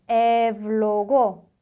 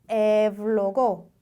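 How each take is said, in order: No difference in how they are said.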